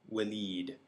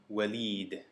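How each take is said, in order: No difference in how they are said.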